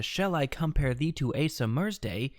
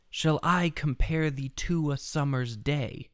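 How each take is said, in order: First: "SHALL i COM-pare THEE to A sum-MER'S day", stress on the wrong beats; "Asa Mersday" said as A sum-MERS-day, the weak syllables hit hard; flipped accents. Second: Slow, measured "shall I com-PARE thee TO a SUM-mer's DAY"; "Shall I compare thee to a summer's day" in slow, even iambs; every other syllable stressed. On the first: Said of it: "flip the accents". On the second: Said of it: "every other syllable is accented". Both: Shown as a demonstration.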